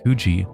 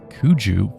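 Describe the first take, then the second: First: The name ends with an 'ee' sound. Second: The name ends with an 'oo' sound. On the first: The speaker calls it wrong. "I called it Kuji" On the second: The speaker calls it right. "actually it's pronounced Kuju"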